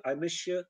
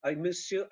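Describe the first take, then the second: First: "I miss you" said as "I mishoo"; "I miss you" run together with sh; merged consonants. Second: Said in the usual way. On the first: Shown as a demonstration. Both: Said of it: "It becomes".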